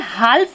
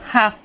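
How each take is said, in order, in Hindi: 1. F से पहले L की आवाज़ बोली जाती है। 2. F से पहले L की आवाज़ साइलेंट होती है। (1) "हम इसे हाल्फ नहीं पढ़ेंगे" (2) "हाफ पढ़ेंगे"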